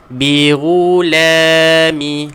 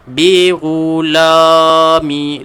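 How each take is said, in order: First: The la syllable sounds light and thin. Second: The la syllable sounds heavy and thick. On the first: The speaker calls it right. "dia kena nipiskan balik" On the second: The speaker calls it wrong. "Saya buat contoh tuan-tuan. ... dia jadi la"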